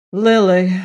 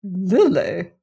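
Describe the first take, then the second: First: Loud, annoyed one-word reply; understated annoyance, said loudly; annoyed deep voice. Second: Incredulous disdain, pitch swooping up and down; haughty, questioning disbelief; disapproving. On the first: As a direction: give the name with curt annoyance. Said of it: "in a deep voice of annoyance". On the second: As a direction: echo the name as if most unsuitable. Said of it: "as if this were a most unsuitable name". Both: A narrator's reading.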